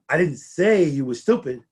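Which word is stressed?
say. The word "say" carries the main stress. It was written rather than said. "but I did write it on the bulletin board"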